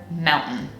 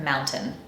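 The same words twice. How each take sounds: First: "mountain" with T stopped in the throat; glottal stop T. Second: "mountain" with a released, audible T; softer aside, T fully sounded; true T. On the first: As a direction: say "mountain" as moun'n, no released T. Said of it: "T with a glottal stop". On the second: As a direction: say "mountain" as moun-tin, crisp T. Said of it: "some people pronounce a true T". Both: Shown as a demonstration.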